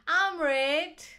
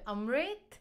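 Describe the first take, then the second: First: The name is said the Ugandan way. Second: The name is said the Indian way. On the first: "In Uganda, where I'm from, it's called Amrit" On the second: "In India, it's called Amrit"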